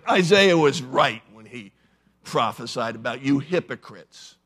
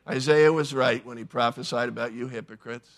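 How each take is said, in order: First: It is said in a harsh, snarling tone. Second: It is said in a plain, mild tone. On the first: The speaker is angry and condemning. "I think he snarled" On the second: It is a calm statement of fact. "Jesus didn't just say"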